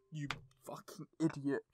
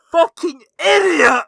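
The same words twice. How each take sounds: First: Muttered curse. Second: Loud angry yell at the game; yelled curse. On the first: Fuming at game, first muttered. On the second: Player screaming at the teacher, furious yell. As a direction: bellow the insult out loud. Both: Real, not acted.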